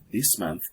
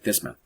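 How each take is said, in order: First: Each word is said separately and clearly. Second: The two words are blended together quickly.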